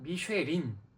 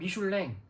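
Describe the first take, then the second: First: The name ends with an 'in' sound. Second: The name ends with an 'ang' sound. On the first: This is the Korean form of the name. "한국어로는" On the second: This is the French form of the name. "불어로는"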